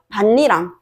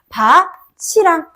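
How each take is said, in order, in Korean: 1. 가운데 소리는 겹친 n이에요. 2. 가운데 소리는 ch 소리예요. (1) "이렇게 발음이 돼야 돼요. 반니랑" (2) "형식 형태소가 오는 경우에는 바, 치랑 국외음화가 일어난다"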